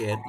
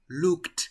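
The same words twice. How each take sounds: First: "looked" in two syllables, as look-ed; wrong extra syllable. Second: "looked" in one syllable, as lookt. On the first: Teacher showing the mistake, "looked" as two syllables. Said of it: "Yo no digo looked". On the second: Teacher correcting the mistake, "looked" as one-syllable lookt. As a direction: close "looked" straight from K into a released T. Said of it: "yo digo looked". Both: Shown as a demonstration.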